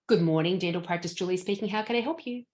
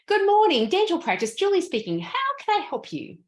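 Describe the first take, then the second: First: It is said pleasantly with moderate energy. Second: It is said with high energy and interest. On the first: The caller gets the service they expected. "Sounds totally delightful, wonderful" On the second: The caller gets better service than they expected. "Different energy"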